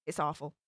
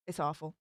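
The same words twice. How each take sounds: The two takes are said the same way.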